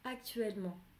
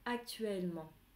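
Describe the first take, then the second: The two takes are said the same way.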